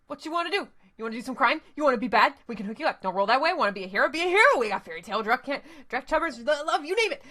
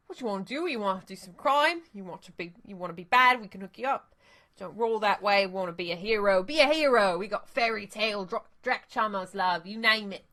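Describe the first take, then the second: First: Put-on fast hustler's pitch in a loose Australian accent; vaguely Australian accent. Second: Put-on second go at the dealer's pitch, loose Australian accent; vaguely Australian accent. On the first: Street dealer pitching crimes to runners, in a rushed Australian accent. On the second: Dealer retrying his pitch to the runners, vaguely Australian accent. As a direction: sell the crimes again in a vaguely Australian accent. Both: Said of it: "in a vaguely Australian accent".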